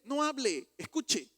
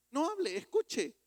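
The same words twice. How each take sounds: First: "no hable" and "escuche" each hit loud and high; two firm commands, a beat apart; stern pulpit command; commanding stress. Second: "No hable, escuche" pitched higher still, "hable" stretched; climbing pulpit repeat; higher stress. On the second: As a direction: lift and stretch the repeated command. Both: Shown as a demonstration.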